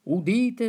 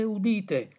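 First: Town crier. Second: Falling, settled second call; the herald's answering call; town crier. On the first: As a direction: call out like a herald. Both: Acted. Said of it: "le laudi di D'Annunzio".

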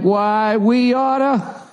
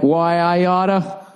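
First: High, very slow cartoon bully; higher tough-guy threat. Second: Slow, drawn-out mock tough guy; tough-guy threat. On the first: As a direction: stretch it higher and slower, mocking. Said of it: "China's like". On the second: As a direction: growl it out like an old cartoon bully. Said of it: "we're like".

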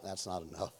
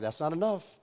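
First: Low, quiet deadpan. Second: Said in the usual way. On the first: Retold or imitated. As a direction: mutter it flatly under breath. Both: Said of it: "I'm like".

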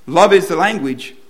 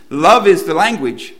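First: Loud, with the weight on "is" in "Love is the language"; stress on is. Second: "Love" slow and loud, pressed hard; stress on love. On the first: Pastor repeating his point to the congregation, hitting "is". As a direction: land on "is" like a verdict. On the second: Pastor driving his point home to the congregation, slow and loud on "Love". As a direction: plant the word "Love is the language" slowly, leaning on "Love". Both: Shown as a demonstration. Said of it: "That's what the Apostle Paul is telling us".

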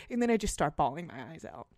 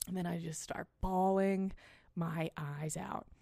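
First: Said in the usual way. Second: Dragged out, quieter at the end; slow emphatic repeat. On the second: Real, not acted. Host repeating the punchline slowly for effect. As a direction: let the last words hang slowly.

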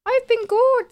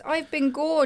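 First: High, loud, bright-sung reply; chirpy. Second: Said in the usual way. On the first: Real, not acted. Friend answering how she's been, in a high chirpy voice. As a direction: sing it out cheerfully.

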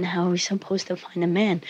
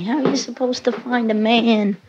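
First: A hint of tired mom, softer; weary mother impression. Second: Mother's nag, pitched up; imitating nagging mother. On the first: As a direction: repeat mom's line quieter, resigned. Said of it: "There we go again". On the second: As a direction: mimic mom's exasperated question, higher. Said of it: "My mother's always yelling at me".

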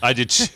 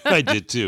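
First: Said in the usual way. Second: Said through a laugh. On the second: Real, not acted. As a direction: laugh while saying it. Laughs on the repeat.

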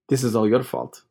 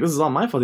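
First: Said in the usual way. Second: Higher-pitched, stress on "my"; incredulous echo. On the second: Retold or imitated. Nephew answering uncle's blame, incredulous on "my". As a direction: throw it back in disbelief, lifting "my".

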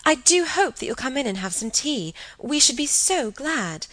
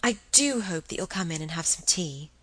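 First: High, eager hostess voice; gushing invitation. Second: Said in the usual way. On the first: Acted. Same invitation, eagerly acted.

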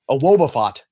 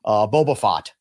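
First: Woba said with a W for Boba; Woba Fett. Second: Said in the usual way. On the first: Shown as a demonstration. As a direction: say it Woba, W sound in place of B. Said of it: "Oh, that's really good".

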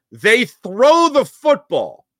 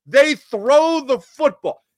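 First: Slow, higher and louder; excited disbelief. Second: Much higher and slow, amazed; amazed emphasis. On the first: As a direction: savor the gutsy call. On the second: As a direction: stretch it out in amazed delight. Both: Shown as a demonstration.

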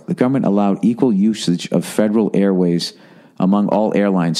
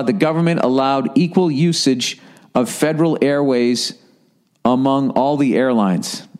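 First: Low, slower careful reading. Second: Said in the usual way. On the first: Shown as a demonstration. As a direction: read it again, more slowly and deliberately. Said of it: "Let me read this slower". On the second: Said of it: "let me read this slower".

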